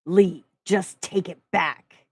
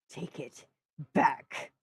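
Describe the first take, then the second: First: "Lee, just take it back" slow, louder, each syllable hit hard; every syllable stressed. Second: Growled. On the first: Narrator pressing Lee to take it back, each syllable hammered. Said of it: "emphasizing every syllable". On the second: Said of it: "I growled". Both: Acted.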